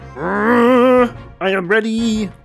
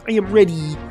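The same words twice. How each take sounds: First: It is said in his normal voice. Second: It is said in a Kermit the Frog voice.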